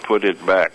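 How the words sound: All on one flat note, sounding menacing. It is a warning of consequences. "if you say it all on the same note, ... it's ominous and threatening"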